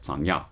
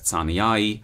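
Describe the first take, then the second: First: The word ends in a ya sound. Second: The word ends in an ai diphthong. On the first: This is the traditional church pronunciation. "the traditional one as tsanya" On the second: This is the classical pronunciation. "the classical pronunciation as tsaniai"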